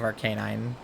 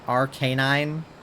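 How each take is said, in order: First: The middle A is kept short. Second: The middle A is lengthened. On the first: The speaker calls it wrong. "I just say Arcanine" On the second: The speaker calls it right. "I think you're supposed to like lengthen the A a little more"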